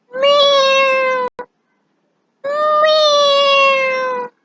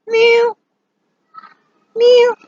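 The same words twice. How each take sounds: First: Long, very high drawn-out meows; cat meow. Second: Short, high, loud mews; kitten meow. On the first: Teacher showing what a cat says, long high meowing. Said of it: "A cat says". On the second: Teacher showing what a kitten says, short high mewing. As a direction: mew briefly like a kitten. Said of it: "A kitten says". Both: Shown as a demonstration.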